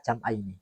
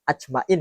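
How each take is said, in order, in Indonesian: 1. Kata ini diucapkan jam'aini, berakhir dengan 'aini'. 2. Kata ini diucapkan ajma'in, berakhir dengan 'in'. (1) "kalau baca bajuri itu illa jam'aini" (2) "Jangan dibaca ajmain ya"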